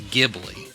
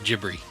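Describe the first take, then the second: First: It starts with a hard G and has an L. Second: It starts with a J sound and has an R. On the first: "the correct Italian pronunciation of the word is" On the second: "in Japan it's pronounced"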